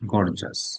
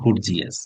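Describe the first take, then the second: First: It is said with two syllables, gor-jus. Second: It is said with three syllables, gor-gee-us. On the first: The speaker calls it right. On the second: The speaker calls it wrong. "Not গর্জিয়াস। গর্জিয়াস কেউ বলবেন না।"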